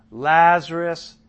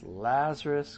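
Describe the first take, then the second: First: Drawn-out loud call of the name. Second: Said in the usual way. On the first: A narrator's reading. Jesus calling Lazarus out of the tomb, slow and loud. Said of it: "called out in a loud voice". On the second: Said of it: "It says".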